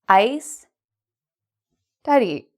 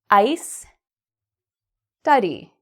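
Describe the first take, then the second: The two takes are said the same way.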